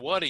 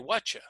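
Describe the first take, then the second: First: The t and y sounds stay separate. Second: The t and y merge into a ch sound. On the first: "instead of saying what'ya" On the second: "some people say whatcha"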